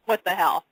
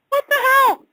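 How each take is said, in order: First: Said in the usual way. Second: "What the hell?" shot up high and loud; shocked exclamation. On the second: Real, not acted. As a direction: blurt out "What the hell?" squeaky with astonishment.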